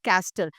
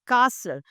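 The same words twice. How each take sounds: First: The T sound is pronounced in the middle. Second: The T sound is silent in the middle. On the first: The speaker calls it wrong. "It is not castle" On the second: The speaker calls it right. "Because the T is silent"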